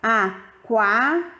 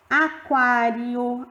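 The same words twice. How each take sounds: First: Aquário said slowly again, falling on kwa; slow demo word. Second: Aquário stretched out syllable by syllable; slow demo word. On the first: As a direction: repeat Aquário carefully. (Aquário repetido devagar) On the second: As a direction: spell out Aquário slowly. (Aquário dito bem devagar, sílaba por sílaba) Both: Shown as a demonstration. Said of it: "reparem que eu separei as sílabas".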